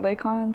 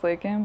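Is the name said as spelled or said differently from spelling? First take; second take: as spelled; differently. First: The name is pronounced the way it is spelled. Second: The name is pronounced differently from its spelling. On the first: This is the pronunciation now used in adult life. "but it's spelled LAYKON" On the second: This is the pronunciation used since childhood. "I grew up as LAYKON"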